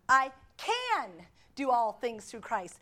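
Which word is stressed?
can. The stress falls on the word "can".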